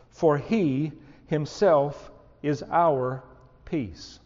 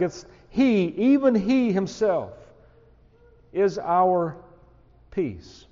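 First: Slow, measured reading of the verse; slow scripture reading. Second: Emphatic stress on "he himself". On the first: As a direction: read each word deliberately. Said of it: "he begins to say it this way". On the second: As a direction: hammer home even he himself. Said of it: "The language here is emphatic". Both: Shown as a demonstration.

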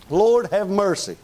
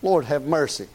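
First: Slow, drawn-out preachy mercy; a hint of a stuffy preacher; mock fundamentalist preacher. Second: Said in the usual way. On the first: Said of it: "one of them guys talks just that way".

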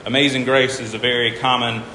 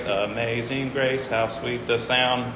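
First: Said in the usual way. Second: Slow, softer "Amazing Grace, how sweet the sound" with syllables spaced; counting syllables. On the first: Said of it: "count 'em out". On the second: Shown as a demonstration. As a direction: say the line slowly to count its beats. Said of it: "eight syllables".

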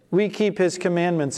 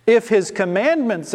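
First: Said in the usual way. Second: If his commandments, pressed hard with weight on commandments; emphatic stress on commandments. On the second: Shown as a demonstration.

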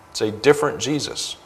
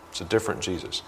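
First: Said in the usual way. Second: Softer, sinking echo of the line; quietly repeating it in dismay. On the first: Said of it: "repeats the line". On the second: Real, not acted. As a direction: let it drop to a hush, half to yourself.

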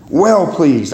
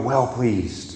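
First: Said in the usual way. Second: Softer, hushed "Well pleased"; hushed answer. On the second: Shown as a demonstration. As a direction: let "Well pleased" drop away softly.

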